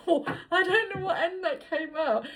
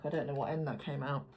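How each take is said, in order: First: Said higher, laughing through every word; laughing repeat. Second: Said in the usual way. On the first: Real, not acted. Reader repeating her slip to viewers, laughing high. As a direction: giggle as you repeat your own blunder. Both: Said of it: "I don't know why I said that like that".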